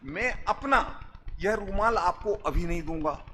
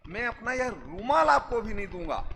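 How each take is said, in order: First: The stress falls on अपना, then a pause. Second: The stress falls on रुमाल. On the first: They will not give their own, but could give another's. "अपना के बाद coma लगाओ" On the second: They will not give the handkerchief, but could give a pen. "Pen दे सकता हूं"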